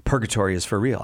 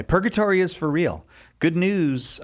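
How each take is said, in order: First: Said in the usual way. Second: Big announcer voice. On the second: Acted. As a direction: sell it like a prize. Re-announces the book title.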